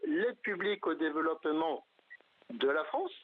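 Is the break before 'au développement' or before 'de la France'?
de la France. The phrase breaks before 'de la France'. It is aid that France gives to other countries. "c'est-à-dire les crédits que la France accorde à tel ou tel pays"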